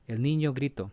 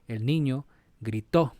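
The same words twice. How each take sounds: First: The stress is not on the last syllable. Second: The stress is on the last syllable. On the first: The speaker calls it wrong. "That's not the proper way to pronounce this" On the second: The speaker calls it right. "you have to accentuate the last syllable"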